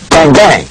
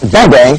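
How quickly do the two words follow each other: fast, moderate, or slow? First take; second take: moderate; fast. First: The two words come in an even, moderate rhythm. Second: The two words are rushed together very quickly. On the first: The speaker calls it right. "a good rhythmic, that's the 1-2" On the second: The speaker calls it wrong.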